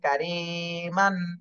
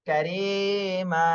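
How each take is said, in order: First: The word ends with a short a and n. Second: The word ends with a lengthened a, no n. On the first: "এটা বানান করার সময় মান হবে" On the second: "এক আলিফ টান দিয়ে পড়তে হবে"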